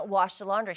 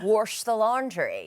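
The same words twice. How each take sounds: First: Said in the usual way. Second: "Wash the laundry" slow, with an r in "Wash"; mom's slow "warsh the laundry"; mom's Southern way. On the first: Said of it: "I'll be like". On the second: Retold or imitated. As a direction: drag out "Wash" like mom does. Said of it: "She's like".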